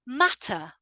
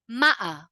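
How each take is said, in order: First: The T is clearly and fully pronounced. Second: The T is cut off by a brief catch. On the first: It sounds very correct. "pronounce all of the words with a fully emphasized T" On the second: It sounds informal. "now let's look at the other way"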